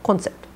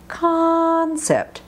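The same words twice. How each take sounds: First: The first vowel is short and not stretched. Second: The first vowel is a long, open ah. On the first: The speaker calls it wrong. "not concept" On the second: The speaker calls it right. "you definitely want to exaggerate when you practice these"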